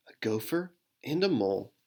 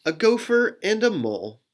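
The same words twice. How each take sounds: First: Faster, quieter reading; quick and softer. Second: Lifted, brighter reading; higher. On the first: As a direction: rush it a little, softly. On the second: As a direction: start the line up high. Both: Shown as a demonstration. Rereads line in two ways.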